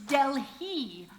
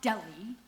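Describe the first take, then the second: First: The H sound is clearly pronounced. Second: The H sound is left out. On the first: The speaker calls it right. "It's Delhi" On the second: The speaker calls it wrong. "you're not sounding the H"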